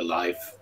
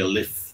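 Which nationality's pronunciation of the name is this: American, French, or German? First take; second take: German; French. First: The name is pronounced the German way. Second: The name is pronounced the French way. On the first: "The Germans call me Life" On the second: "The French call me Leif"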